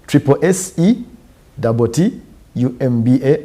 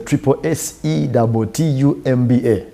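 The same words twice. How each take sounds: First: It is spelled out slowly and deliberately. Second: It is spelled out at a normal pace.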